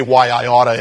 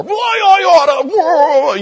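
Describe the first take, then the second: First: Said in the usual way. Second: High, loud, slow stretched-out threat; hammed-up angry yell of a shaking fist; mock furious shout. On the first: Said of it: "however you say". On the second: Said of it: "he yelled at me some more".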